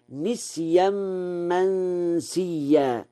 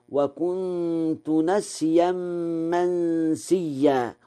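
First: نسيا with a kasra, nisyan; Warsh reading. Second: نسيا with a fath, nasyan, recited slowly; standard reading. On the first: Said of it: "قرأ ورش". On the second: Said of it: "قوله تعالى". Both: Shown as a demonstration.

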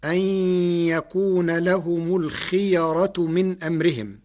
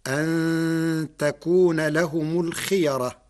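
First: يكون with an opening y, the n of أن merged into it; ya form. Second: تكون with an opening t, long nasal n in أن before it; feminine ta form. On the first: Lecturer reciting the verse before Warsh's variant, yakūna. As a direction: recite ay-yakūna, nasal hum held on the y of يكون. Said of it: "قرأ ورش كلمة يكون". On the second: Lecturer showing how Warsh reads it, takūna. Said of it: "بتاء التأنيث". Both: Shown as a demonstration.

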